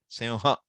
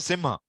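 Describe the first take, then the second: First: The nasal is said as a nasalized vowel. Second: The nasal is said as a full m sound. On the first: The speaker calls it right. "They will have one special way" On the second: The speaker calls it wrong. "they will not say Simha"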